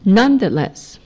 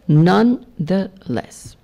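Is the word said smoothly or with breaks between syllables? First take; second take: smoothly; with breaks. First: The syllables run together without breaks. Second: Each syllable is separated by a short break.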